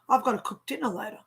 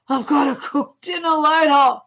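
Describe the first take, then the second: First: It is said in a plain, neutral tone. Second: It is said in a weary, reluctant tone. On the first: Cooking dinner is simply a plan. "There's two things I can say right now" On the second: Cooking dinner is an unwelcome chore. "oh God"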